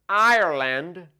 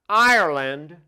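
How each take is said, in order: Both takes have the same delivery.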